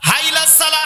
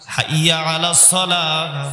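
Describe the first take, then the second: First: The words are slurred together and clipped short. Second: Each word is said fully and distinctly. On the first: This is how careless callers mangle the phrase. The speaker calls it wrong. "সেই শব্দ ভাঙ্গে চিরে কতটা মানে ঠেরকুচো করে ফেলে দেয়" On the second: This is the proper form of the phrase. The speaker calls it right. "কত সুন্দর ভাষা"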